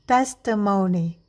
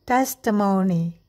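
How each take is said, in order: Both takes have the same delivery.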